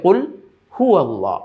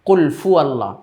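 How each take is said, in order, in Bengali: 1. দ্বিতীয় শব্দটি h ধ্বনি দিয়ে শুরু হয়েছে। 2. দ্বিতীয় শব্দটি f ধ্বনি দিয়ে শুরু হয়েছে। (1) "স্পষ্টভাবে বলতে হবে কুল হু আল্লাহ, এখানে হা" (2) "হাটাকে ফা বলে ফেলে, কুল ফু আল্লাহ এইভাবে বলে"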